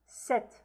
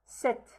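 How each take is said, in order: No difference in how they are said.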